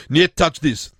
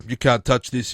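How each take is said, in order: First: "niet touch this" in a mock Russian accent. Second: Said in the usual way. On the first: Host rewriting a rap line for Chechnya, mock Russian accent. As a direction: punch niet, Russian-style, a bit louder. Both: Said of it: "so instead of".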